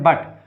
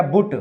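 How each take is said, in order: First: बट with a short open a, as English but is really said; actual pronunciation. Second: बुट read letter by letter as it is spelt, with the vowel of put; literal spelling reading. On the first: Teacher telling students the real way to read बट. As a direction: give the real reading बट, not बुट. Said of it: "इसको क्या पढ़ते हैं?". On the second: Teacher showing students the spelling-based reading बुट. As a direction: say बुट the way the spelling suggests, like पुट. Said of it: "इसको वैसे तो पढ़ना चाहिए क्या?". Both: Shown as a demonstration.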